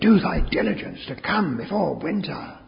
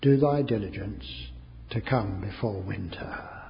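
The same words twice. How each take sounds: First: It is read with strong passion. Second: It is read slowly and quietly. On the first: "it was much more with passion" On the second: "I read it very slowly and quietly"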